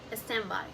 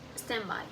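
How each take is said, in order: No difference in how they are said.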